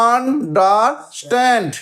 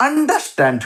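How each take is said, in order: First: understand split slowly into three separate beats; syllable by syllable. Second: Said in the usual way. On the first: Shown as a demonstration. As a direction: break understand into un, der, stand with gaps. (Understand ধীরে ধীরে, তিন সিলেবলে ভেঙে) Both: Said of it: "কটা syllable?".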